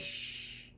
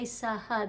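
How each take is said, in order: First: The two letters make one new sound. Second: Two separate letter sounds are said in turn. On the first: The speaker calls it right. "they say shh" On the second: The speaker calls it wrong. "They don't say saha"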